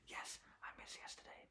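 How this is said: It is said in a quiet whisper.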